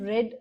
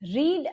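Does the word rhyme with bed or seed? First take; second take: bed; seed. First: The vowel is short, as in bed. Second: The vowel is long, as in seed. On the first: It is the simple past tense. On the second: It is the present tense.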